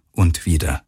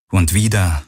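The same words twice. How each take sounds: The two takes are said the same way.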